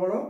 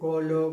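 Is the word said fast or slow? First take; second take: fast; slow. First: The word is said quickly. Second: The word is said very slowly. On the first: "y luego cada vez más rápido" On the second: "al principio lo hacemos muy lento"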